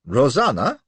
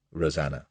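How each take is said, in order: First: Rosanna rising, louder and questioning; teasing question. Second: Said in the usual way. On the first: A narrator's reading. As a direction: echo Rosanna as a sly question. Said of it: "what's this, a pet name". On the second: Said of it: "cavalier as be damned".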